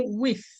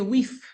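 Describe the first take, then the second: First: The final sound is a th sound. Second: The final th is replaced by another sound. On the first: This is how others say it. "we don't say with" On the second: This is how Dominicans say it. "we say with"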